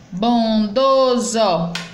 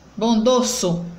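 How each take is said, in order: First: The last consonant is a voiced z sound. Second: The last consonant is a voiceless s sound. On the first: The speaker calls it right. "são escritas com S, mas tem som de Z" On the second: The speaker calls it wrong. "não botando o som de Z, mas botando o som do S"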